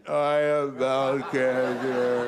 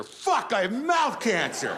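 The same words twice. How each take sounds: First: Very slow, drawn-out hammed-up gloom; mock despair. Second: A much higher, slow, hammed-up furious cry; mock anger. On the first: Comic acting out the depression stage, hammed-up gloom. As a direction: sink into theatrical despair. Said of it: "And then depression". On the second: Comic acting out the anger stage, hammed-up fury. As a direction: ham up the rage of a doomed man. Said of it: "Then anger".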